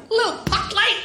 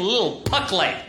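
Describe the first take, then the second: First: High sweet "Little puck light"; mock cutesy. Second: Said in the usual way. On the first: Real, not acted. Describing the wanted tiny light, cutesy high voice.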